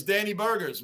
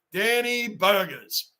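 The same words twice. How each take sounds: First: Said in the usual way. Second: Slow drawn-out nickname. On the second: Shown as a demonstration. Mocking a chunky slugger to chat, slow and savoring. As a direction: stretch each syllable of Danny Burgers slowly. Nickname repeated slowly for effect.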